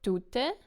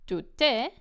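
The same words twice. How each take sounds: First: The stress is on the first syllable. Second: The stress is on the second syllable.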